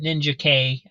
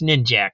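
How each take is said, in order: First: The K is said as a separate letter name. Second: The K is joined to the end of one word. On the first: This is how some others say the name. The speaker calls it wrong. "I've heard people pronounce it Ninja K" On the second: This is the name as written, with no hyphen. The speaker calls it right. "there's no hyphen there. It's got it's Ninjak, right?"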